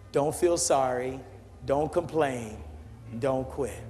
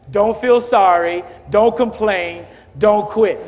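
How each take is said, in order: First: It is said at a normal volume. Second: It is said louder than before.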